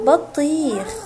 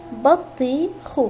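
First: Said in the usual way. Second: بطيخ split slowly into بَ طِي خْ; teacher sounding out بطيخ for children; syllable by syllable. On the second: Shown as a demonstration. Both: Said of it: "حرف الباء جاء مفتوحا".

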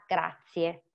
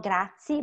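First: "grazie" slowly with every vowel, "grat-si-e"; "grazie" in full, three clear syllables; correct pronunciation. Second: "grazie" clipped as "grat-si", final vowel dropped; wrong pronunciation. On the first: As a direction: say "grazie" carefully, sounding the final e. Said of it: "but grazie". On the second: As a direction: say "grazie" the wrong way, losing the last e. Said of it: "Not grazie". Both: Shown as a demonstration.

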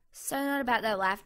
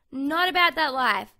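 First: Said in the usual way. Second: Loud catchphrase. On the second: Real, not acted. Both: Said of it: "I keep saying that".

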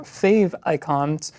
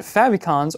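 First: FAVICONS said as "fave icons"; "favicons" with a long a and a long i; alternative pronunciation. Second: FAVICONS said as "FAV-ih-cons"; "favicons" as one word, "fav" as in "have"; usual pronunciation. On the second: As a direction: say "favicons" with a short a. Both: Shown as a demonstration. Two pronunciations offered side by side.

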